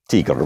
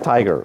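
First: The word is pronounced the German way, like teeger. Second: The word is pronounced the English way, like tiger. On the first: This is how the original language says it. "we don't say Tiger" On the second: This is how English speakers usually say it. "we say Tiger"

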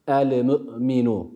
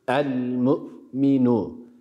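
First: A vowel sound follows the l. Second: The l is closed with no vowel after it. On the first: The speaker calls it wrong. "Yanlış telaffuz olur. El-mu'minu değil" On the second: The speaker calls it right. "Cezmi gerçekleştirdik"

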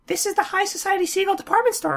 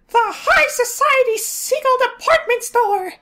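First: It is said plainly, without strong feeling. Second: It is said with big, exaggerated feeling.

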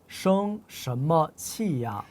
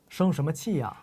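First: The phrase is said slowly and deliberately. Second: The phrase is said at a natural, faster pace. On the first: "이거 저희 천천히 읽어볼게요" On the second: "자연스러운 속도로 저희 한번 말해볼까요?"

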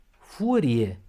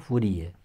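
First: The stress falls on the first syllable. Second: The stress falls on the second syllable. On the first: The speaker calls it right. "cu accentul pe U" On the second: The speaker calls it wrong. "și nu furie"

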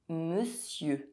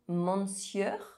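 First: The word uses its usual spoken sounds. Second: Each written letter is sounded out literally. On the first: The speaker calls it right. "you will see the actual sounds that combine to produce the word and you will pronounce it correctly" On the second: The speaker calls it wrong. "instead of looking at the letters of this word and trying to pronounce them, maybe saying"

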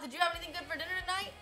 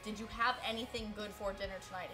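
First: The words are slurred and run together. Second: The words are said clearly and separately. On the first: "ran all the words together" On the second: "I should enunciate"

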